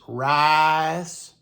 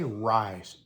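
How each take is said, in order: First: The vowel is drawn out in a Southern drawl. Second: The vowel is short, without a Southern drawl. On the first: "they love to drag out the I" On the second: "They don't say rice"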